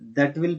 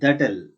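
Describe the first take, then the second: First: Both words are said fully and separately. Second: The words merge into one contracted syllable. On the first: "that will pronounced as that'll" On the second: "pronounced as that'll"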